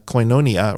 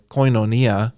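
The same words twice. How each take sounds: First: Koinonia as koy-NOH-nia, stress on the long o; alternative stress. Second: Koinonia as koy-no-NEE-a, short o; short-O pronunciation. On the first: Teacher contrasting where the accent goes, stressed-NOH pronunciation. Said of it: "put the emphasis on the syllable". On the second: Teacher showing the short omicron, careful accented pronunciation. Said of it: "with a short O". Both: Shown as a demonstration.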